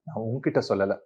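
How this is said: The stress falls on the middle word. I told someone else, not you. "உங்ககிட்ட stress கொடுத்தேன்னா"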